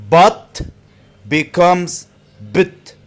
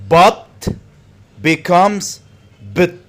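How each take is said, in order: Both takes have the same delivery.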